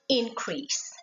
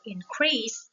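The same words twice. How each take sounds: First: The stress is on the first syllable. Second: The stress is on the second syllable. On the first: It is used as a noun. "a noun with two syllables always stress to the first" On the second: It is used as a verb. "for the verb with two syllables, the stress is on the second"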